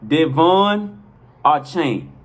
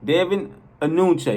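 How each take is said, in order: First: The surname is said like 'Archain'. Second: The surname is said like 'Anunche'. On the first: The speaker calls it right. "is pronounced" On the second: The speaker calls it wrong. "That's how I'm this this the before now"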